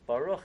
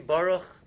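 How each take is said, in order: First: The stress is on the last syllable. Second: The stress is on the first syllable. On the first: The speaker calls it right. "It's Baruch, it's a no-ra" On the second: The speaker calls it wrong. "If you say Baruch, you said it in, incorrectly"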